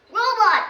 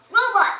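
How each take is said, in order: First: Sharp high shout of a name; loud warning shout. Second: High, loud call of a name; loud calling shout. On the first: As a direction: call the robot to stop. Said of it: "shouts Ben". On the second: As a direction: summon the robot sharply. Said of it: "says Ben". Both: Acted.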